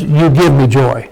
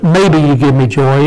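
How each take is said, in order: First: Lower, falling statement with weight on "give"; stress on GIVE. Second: "maybe" is the most prominent word; stress on MAYBE. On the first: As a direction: state it as certain, "give" most prominent. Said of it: "it was". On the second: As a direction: lean on "maybe" as the rejected wording. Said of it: "it wasn't". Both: Shown as a demonstration.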